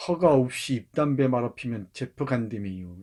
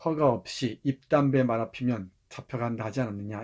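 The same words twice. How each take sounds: First: Chungcheong dialect. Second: Said in the usual way. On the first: Acted. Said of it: "우리 옹점이가 봤습니다". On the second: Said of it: "standard paraphrase of dialect".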